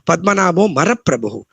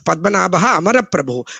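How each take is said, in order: First: Amaraprabhu is said without its opening vowel. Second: Amaraprabhu is said with its opening vowel. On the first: The speaker calls it wrong. "he used to chant as" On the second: The speaker calls it right. "It has to be split as"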